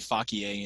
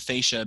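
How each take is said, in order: First: It is pronounced in a classical Latin way. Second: It is pronounced in an anglicized way. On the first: This is how it is taught in Latin class. The speaker calls it right. "they taught us to say facie" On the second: This is how philosophers commonly say it. The speaker calls it wrong. "they pronounced it prima facie because uh, they didn't take Latin, I guess, properly"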